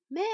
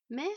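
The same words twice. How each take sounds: First: Louder, more insistent rising call. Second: Questioning upward call. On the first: Boy calling again for vanished mother, urgent call. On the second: Boy calling for vanished mother, tentative call. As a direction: call searchingly, voice rising. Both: A narrator's reading. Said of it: "appela-t-il".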